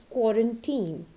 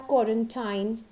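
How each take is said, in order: First: Put-on quarantine ending in "teen"; correct pronunciation. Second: Quarantine ending like "tine"; wrong pronunciation. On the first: Teacher telling learners which to use, correct pronunciation. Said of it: "use quarantine". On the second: Teacher warning never to call it this, mispronounced. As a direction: say quarantine with an "eye" vowel at the end. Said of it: "so never call it as". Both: Shown as a demonstration.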